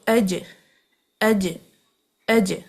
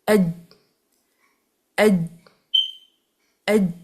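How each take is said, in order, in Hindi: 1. आख़िरी j bounce के साथ छोड़ा जाता है। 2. आख़िरी j बिना बाउंस के होल्ड होता है। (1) "अगर मैं उसको बाउंस करूं" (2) "जीम को आप साकिन करके पढ़ें"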